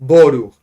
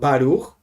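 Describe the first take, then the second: First: The first vowel is an o sound. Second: The first vowel is an a sound. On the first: "we in Chabad say Boruch, ... like with the O" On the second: "Some people say Baruch"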